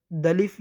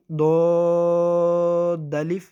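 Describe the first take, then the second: First: دلف said quickly as one word, with دود and الف merged; run-together wrong way. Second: دود الف read slowly, with دود held and kept apart from الف; separate letters. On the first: Teacher showing students the wrong merged reading. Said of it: "یہ کیا لفظ؟". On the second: Teacher reading letters one by one, correctly. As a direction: pronounce دود and الف as two separate names. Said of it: "اگر میں ایسے پڑھ دوں". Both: Shown as a demonstration.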